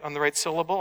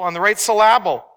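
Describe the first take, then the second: First: Said in the usual way. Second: "syllable" as sil-LAB-ul, middle punched louder; misplaced stress. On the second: Shown as a demonstration. Preacher joking about emphasis, "syllable" wrongly stressed as sil-LAB-ul. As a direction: punch the second syllable of "syllable" for a joke. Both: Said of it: "put the emphasis on the right syllable".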